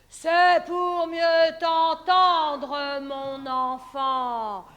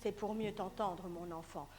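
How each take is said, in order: First: Very slow, loud growl; wolf voice. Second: Said in the usual way. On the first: Acted. Wolf answering the girl. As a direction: growl it out slowly.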